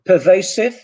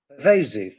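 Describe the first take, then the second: First: PERVASIVE with s, per-VAY-siv. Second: PERVASIVE with z, per-VAY-ziv; Z variant. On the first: Teacher offering the first option, s sound. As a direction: say PERVASIVE with a hissing s. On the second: Teacher offering the second option, z sound. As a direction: say PERVASIVE with a buzzing z. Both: Shown as a demonstration. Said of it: "either this or that".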